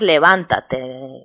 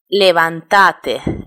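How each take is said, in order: First: It is said with the Spanish stress placement. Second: It is said with the Argentine stress placement. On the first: "Que nosotros decimos" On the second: "los argentinos muchas eh, cuando hablan dicen"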